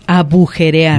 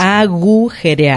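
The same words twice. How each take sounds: First: "agujerear" said as a-bu-je-re-ar, slowly; wrong B sound. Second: "agujerear" very slow, a-GU-je-re-ar; correct G sound. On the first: Host clarifying the wrong form for listeners, slow B version. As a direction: put a B in place of the G in agujerear. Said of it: "aclarar, no es". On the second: Host clarifying the right form for listeners, slow G version. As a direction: separate each syllable of agujerear with clear G. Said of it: "G y luego J". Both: Shown as a demonstration.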